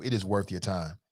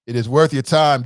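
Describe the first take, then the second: First: Quieter take. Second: Emphatic louder take. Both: Shown as a demonstration.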